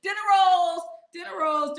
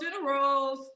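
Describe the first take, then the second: First: High, loud punchline; high loud hoot; excited. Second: Said in the usual way. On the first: Real, not acted. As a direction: shout the joke. Repeats the joke louder.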